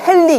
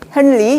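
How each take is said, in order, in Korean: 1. n 소리가 l 소리로 바뀌어요. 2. r 소리 앞에서는 n 소리가 그대로 유지돼요. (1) "우리식으로 유음화 해가지고" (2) "영어는 그대로 하죠"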